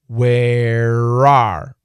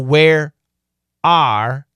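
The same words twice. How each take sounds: First: The r sound links into the next word. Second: The two words are said separately.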